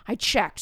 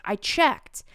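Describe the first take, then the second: First: "I checked" with a firm falling finish; falling confirm. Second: "I checked" with a rising, questioning lift on checked; first "I checked" goes up at the end. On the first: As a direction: settle "I checked" down, conclusive. Kid repeats for emphasis. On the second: Kid insists he checked. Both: Retold or imitated.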